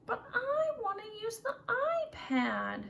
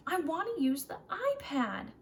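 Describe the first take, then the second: First: Much higher, slow, drawn-out whine; pouty child whining for the iPad; whiny child. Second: Higher, louder pouty demand; upset child repeating his wish; sulky child. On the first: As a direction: whine like a kid denied. Child whines after told no. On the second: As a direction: insist like a cross kid. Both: Acted.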